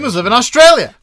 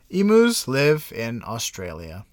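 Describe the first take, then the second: First: It is said loudly, with excitement. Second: It is said flatly, without excitement.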